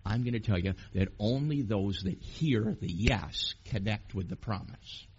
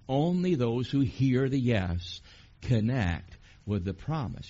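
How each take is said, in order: First: Said in the usual way. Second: Slow and louder, weight on every word; slow emphatic repeat. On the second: Shown as a demonstration. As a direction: hammer the point home slowly. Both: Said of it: "Are you getting that?".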